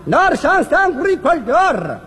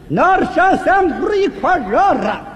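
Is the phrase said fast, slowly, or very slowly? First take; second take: slowly; very slowly. First: The phrase is spoken at a slower pace. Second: The phrase is spoken at a very slow pace. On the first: "慢点" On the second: "再慢点啊"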